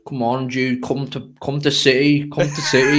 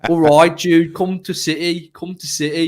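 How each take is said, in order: First: Mock Brummie, rough Birmingham accent; a clumsy Birmingham accent, ending in a laughing shout on "come to City"; bad Birmingham accent. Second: Put-on second try at a Brummie accent, a bit higher; a more convincing Birmingham accent, louder at the start; better Birmingham accent. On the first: Coaxing a Birmingham teammate in a bad Birmingham accent. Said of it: "That's the worst Birmingham accent". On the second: Second go at coaxing Jude in a Birmingham accent. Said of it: "your second go, you improved it".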